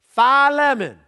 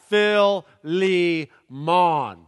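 First: It begins with 'fie', followed by 'lemon'. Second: It begins with 'fill', followed by 'lee mon'. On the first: It is how fraternity and sorority members say it. "Or you could say it like the frat boys or sorority girls" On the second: It is how people in the American South say it. "And then the southern pronunciation"

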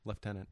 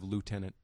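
First: The first syllable has an F or V sound. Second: The first syllable sounds like 'loo', without F. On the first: This is the Canadian and British way. "It's pronounced like it has a V in it" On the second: This is the American way. "Instead of lieutenant"

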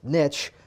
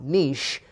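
First: The word rhymes with rich. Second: The word does not rhyme with rich. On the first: The speaker calls it right. "it's niche, because niche rhymes with rich" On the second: The speaker calls it wrong. "not niche"

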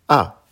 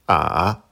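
First: The pitch falls sharply from high to low. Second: The pitch dips low, then rises. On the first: "Quatrième ton" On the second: "Troisième ton"

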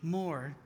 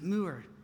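First: The name is said without a 'moo' sound. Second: The name is said like 'moo-er'. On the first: The speaker calls it wrong. "Over here, you would call somebody with the last name M-O-O-R-E" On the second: The speaker calls it right. "we pronounce it Moore. ... just remember a cow's job description"

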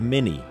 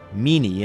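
First: The name has an English pronunciation. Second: The name has an Italian pronunciation.

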